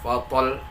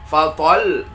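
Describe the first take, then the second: First: The pitch stays level across the word. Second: The pitch rises on the ta syllable. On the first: The speaker calls it wrong. "jangan fatal" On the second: The speaker calls it right. "maka kita naikkan huruf ta intonasinya"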